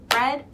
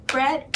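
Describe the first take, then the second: Both takes have the same delivery.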